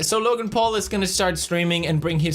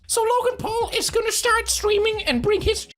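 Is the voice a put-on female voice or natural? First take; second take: natural; put-on female. First: It is read in a natural, ordinary voice. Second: It is read in a put-on female voice.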